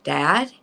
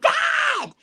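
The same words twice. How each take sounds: First: Questioning, rising call; tentative check. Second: Very high, indignant squawk; high-pitched mock outrage; mock-offended cry. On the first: Retold or imitated. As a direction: gently check on someone who has frozen. Calls to frozen father. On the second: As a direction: protest loudly at being teased. Mock protest at father's tease.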